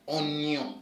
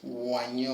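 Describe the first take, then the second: First: The word begins with an 'o' sound. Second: The word begins with a 'wa' sound. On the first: The speaker calls it right. "but it becomes onyo to mean onion" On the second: The speaker calls it wrong. "I know you'll be tempted to say it as wanyo"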